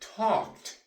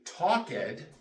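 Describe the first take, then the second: First: The ending is said as a t sound. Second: The ending is said as an extra syllable. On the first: The speaker calls it right. "We say talked" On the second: The speaker calls it wrong. "We do not say talked"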